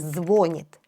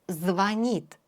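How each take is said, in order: First: The stress is on the first syllable. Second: The stress is on the second syllable. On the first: The speaker calls it wrong. "Не говорите «звонит». Это ошибка" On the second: The speaker calls it right. "Ударение на «и»"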